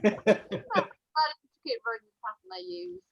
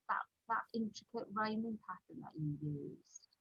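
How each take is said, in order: First: Higher, louder echo in disbelief; retold incredulous echo. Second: Softer, offhand publisher's remark; casual retold request. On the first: Author echoing her publisher's request, incredulous. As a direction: throw the phrase back, raised and louder. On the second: Publisher asking the author for the same pattern, offhand. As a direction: toss it off quietly, as a casual request.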